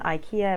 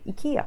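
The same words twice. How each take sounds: First: It is pronounced the Australian English way. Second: It is pronounced the Swedish way. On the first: The speaker calls it wrong. "I always have been calling it IKEA ever since I moved to Australia" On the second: The speaker calls it right. "If you're speaking to someone from Sweden, you might want to go IKEA"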